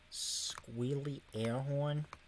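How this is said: It is said in a put-on accent.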